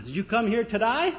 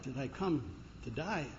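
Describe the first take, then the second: First: Australian cabbie, pitched up at the end; Australian accent. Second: Quiet, taken-aback question; upset. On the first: Cabbie greeting a visitor from the United States, Australian accent. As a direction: ask it in a broad Australian accent. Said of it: "he's not speaking Australian". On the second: American tourist echoing the cabbie, upset and hushed. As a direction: softly echo it, unsettled. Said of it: "The guy was kind of upset". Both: Acted.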